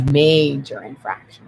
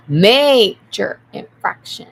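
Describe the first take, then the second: First: Slow, firm verdict "Major infraction"; stern call. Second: "Major infraction" very loud and slow, stretched out; loud verdict. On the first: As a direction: state "Major infraction" like a referee. Declaring a penalty. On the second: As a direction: boom out "Major infraction" like a final ruling. Repeated louder verdict. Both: Real, not acted.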